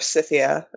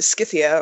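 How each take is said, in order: First: It begins with a soft S sound. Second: It begins with a hard K sound. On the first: "as some people pronounce it" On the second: "I always pronounce it with a hard C"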